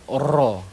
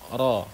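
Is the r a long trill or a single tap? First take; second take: long trill; single tap. First: The r is trilled with many vibrations. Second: The r vibrates only once, briefly. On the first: The speaker calls it wrong. "bukan ra" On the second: The speaker calls it right. "vibrasi yang dibenarkan itu adalah sekali saja"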